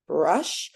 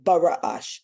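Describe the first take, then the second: First: The first two consonants are blended with no vowel. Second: An extra vowel separates the first two consonants. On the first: The speaker calls it right. "also four sounds" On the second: The speaker calls it wrong. "We don't want to say Bara'ash"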